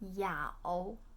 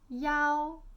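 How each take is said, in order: First: The tone dips, then rises. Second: The tone is high and level.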